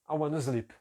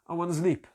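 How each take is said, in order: No difference in how they are said.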